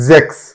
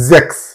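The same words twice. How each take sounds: No difference in how they are said.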